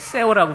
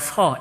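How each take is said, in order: First: The name is two syllables, read as spelled. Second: The name is one syllable, Korean style.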